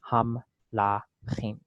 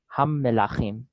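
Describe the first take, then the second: First: No vowel is heard after the m. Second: A short vowel is heard after the m. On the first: "if there was no dagesh there, it would easily be" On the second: "they're making this vocal because the mem is doubled with this dagesh"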